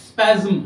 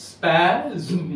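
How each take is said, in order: First: Said in the usual way. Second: "স্প্যাজম" stretched slowly, with the final ম held as its own syllable; slowly drawn out. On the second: Shown as a demonstration. Lecturer slowing the word so students hear two syllables. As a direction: draw out "স্প্যাজম" so the ম sounds like a vowel. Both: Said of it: "দুটি ধ্বনি দল".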